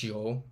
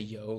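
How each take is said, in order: First: The word is said with an Argentine pronunciation. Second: The word is said with standard Spanish pronunciation. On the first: "like yo" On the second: "they say yo"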